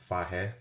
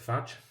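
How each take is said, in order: First: The name ends in a vowel, like 'fah-yeh'. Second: The name ends in a 'j' sound, like 'fudge'. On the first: "I think you pronounce it fahe" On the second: "I always pronounce it fudge"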